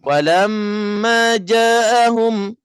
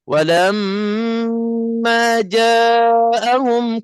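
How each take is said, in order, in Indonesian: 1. Sengau dan vokal panjang keduanya hilang. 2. Sengau ditahan lebih lama daripada vokal. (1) "tak ada langsung dengung. Ah, dah tak ada langsung mat" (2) "dengung tu lebih panjang daripada mat"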